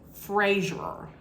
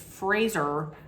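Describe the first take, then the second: First: The name does not rhyme with razor. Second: The name rhymes with razor. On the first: The speaker calls it wrong. "in the past I had always said Brendan Fraser, but it's really not" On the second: The speaker calls it right. "It's Fraser, like razor"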